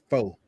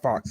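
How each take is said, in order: First: The word ends on a vowel, with no ks. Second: The word ends with a clear ks sound. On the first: The speaker calls it right. "it's faux" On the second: The speaker calls it wrong. "people be saying fox. It's not fox"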